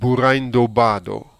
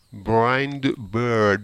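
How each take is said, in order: First: It is said with Japanese sounds and added vowels. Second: It is said with English sounds and no added vowels.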